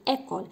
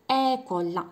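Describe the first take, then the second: First: École with a closed, tense é, the right way; the correct école; correct pronunciation. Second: École with a flat, unrounded é, the wrong way; the incorrect école; wrong pronunciation. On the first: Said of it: "كنقول école". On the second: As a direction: say école loud and high like the mistake to avoid. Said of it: "إنما كنقولش". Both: Shown as a demonstration.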